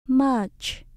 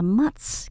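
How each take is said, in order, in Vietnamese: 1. Từ này kết thúc bằng âm 'ch'. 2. Từ này kết thúc bằng âm 's'. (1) "Mình vẫn đọc âm chờ các bạn nhé" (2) "mình không đọc là much"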